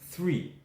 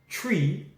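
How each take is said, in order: First: It begins with a soft th sound. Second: It begins with a hard t sound.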